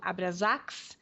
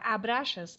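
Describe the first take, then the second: First: The name ends with the sound 'sax'. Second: The name ends with the sound 'xas'. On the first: This is how the film sometimes says it. "às vezes eles pronunciam Abrasax" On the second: This is the form used in Portuguese. "aqui em português nós vamos falar Abraxas"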